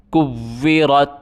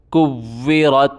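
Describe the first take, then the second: No difference in how they are said.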